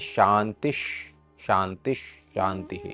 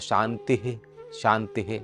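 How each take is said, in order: First: Each ending merges into the next 'sh' sound. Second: Each word is said separately without linking. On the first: The speaker calls it right. "विसर्ग और श मिलकर श हो जाता है। तो इस तरीके से पढ़ेंगे" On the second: The speaker calls it wrong. "शांति शांति नहीं पढ़ेंगे"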